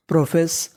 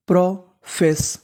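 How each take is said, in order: First: Said in the usual way. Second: profess stretched slowly, syllable by syllable; slow sounding out. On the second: Shown as a demonstration. Teacher to students slowly blending profess. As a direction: spell the word out slowly in sound. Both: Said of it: "मिला के पढ़ते हैं".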